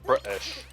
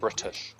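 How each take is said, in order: First: The T sound in the middle is dropped. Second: The T sound in the middle is pronounced. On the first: "not pronounce the T? So they're like British" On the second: "instead of British"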